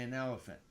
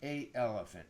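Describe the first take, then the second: First: An n sound links the article to the vowel. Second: The article meets the vowel with no linking n. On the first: The speaker calls it right. "We say an elephant" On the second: The speaker calls it wrong. "We don't say a elephant"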